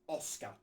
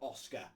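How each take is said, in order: First: The stress is on the first syllable. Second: The stress is on the second syllable. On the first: The speaker calls it right. "the accent on the O means it means you emphasise that" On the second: The speaker calls it wrong. "it's not Oscar"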